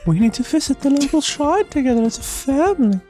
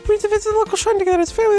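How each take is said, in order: First: The line is read more slowly and carefully. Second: The line is read quickly and rushed.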